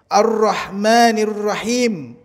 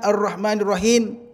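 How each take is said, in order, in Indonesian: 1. Huruf m terakhir dibaca dengan bibir tertutup. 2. Bunyi terakhir dibaca dengan bibir terbuka. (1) "Mim terakhir tutup mulutnya"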